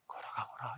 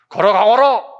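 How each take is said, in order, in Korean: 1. 낮고 부드러운 목소리로 말한다. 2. 큰 목소리로 말한다. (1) "나지막한 소리에 얘기했을까?" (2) "큰 소리에 얘기했을까?"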